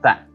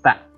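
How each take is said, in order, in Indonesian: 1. Dimulai dengan bunyi th. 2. Dimulai dengan bunyi th.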